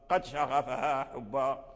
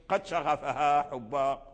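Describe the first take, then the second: The two takes are said the same way.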